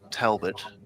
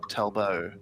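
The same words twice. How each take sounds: First: The name is said with a British pronunciation. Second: The name is said with a French pronunciation. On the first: "the British would say" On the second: "the French would say"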